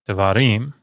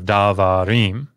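First: The first vowel is reduced to a short sound. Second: The first vowel is a full, clear vowel. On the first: The speaker calls it right. "it gets reduced" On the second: The speaker calls it wrong. "instead of"

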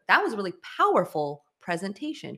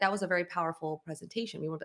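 First: The word powerful gets extra stress. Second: No word in it gets extra stress. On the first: The speaker calls it right. "We want to emphasize powerful" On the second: The speaker calls it wrong. "instead of just like"

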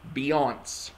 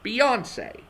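First: The name does not end with 'ay'. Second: The name ends with a clear 'ay' vowel. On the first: The speaker calls it wrong. "It is not Beyonce" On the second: The speaker calls it right. "It's [name]"

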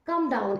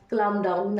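First: The L in 'calm' is silent. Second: The L in 'calm' is sounded. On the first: The speaker calls it right. "না, কাম down, এল silent" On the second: The speaker calls it wrong. "অনেকে কি already এখানে pronounce করে নিয়েছো"

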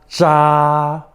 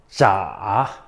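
First: It is said with the first tone. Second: It is said with the third tone.

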